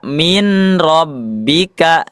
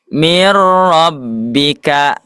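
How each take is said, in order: First: The first word ends with an n sound. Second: The first word ends with an r sound. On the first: The speaker calls it wrong. "tidak dibaca min rabbika" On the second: The speaker calls it right. "Coba mir rabbika"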